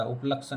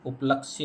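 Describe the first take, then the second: First: उपलक्ष with no final ya; teacher showing faulty उपलक्ष, य dropped; wrong form उपलक्ष. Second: उपलक्ष्य ending in a ya glide; teacher modelling उपलक्ष्य with final य; correct form उपलक्ष्य. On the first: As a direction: say उपलक्ष, ending on क्ष. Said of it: "उपलक्ष्य नहीं होता". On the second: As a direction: say उपलक्ष्य, sounding क्ष्य at the end. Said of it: "उपलक्ष्य होता". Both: Shown as a demonstration.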